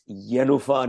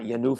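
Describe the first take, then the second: First: The stress is on the first syllable. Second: The stress is not on the first syllable. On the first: The speaker calls it right. "just like it's Yenufa" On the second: The speaker calls it wrong. "not Yenufa"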